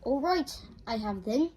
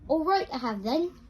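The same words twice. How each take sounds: First: It is said at normal, quieter volume. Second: It is said in a much louder voice.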